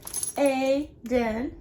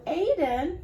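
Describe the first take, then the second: First: "Aiden" as two separate beats; split into syllables. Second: Said in the usual way. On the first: Shown as a demonstration. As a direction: sound out "Aiden" syllable by syllable, with a gap. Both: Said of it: "Let's count it".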